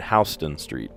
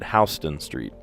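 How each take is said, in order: First: Houston is said the way locals say it. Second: The same.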